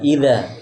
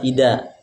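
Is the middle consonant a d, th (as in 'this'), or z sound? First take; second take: th sound; d sound. First: The middle consonant is a th sound. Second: The middle consonant is a d sound. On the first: The speaker calls it right. "tapi ida" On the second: The speaker calls it wrong. "Jangan juga pakai dal"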